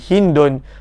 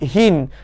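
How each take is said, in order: First: The name has two syllables, ending in -un. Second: The name has one syllable, ending in d. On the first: It is read with the full grammatical ending. "kalaulah kita baca dengan tanwinnya sekali" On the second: It is the pausal form Arabs usually say.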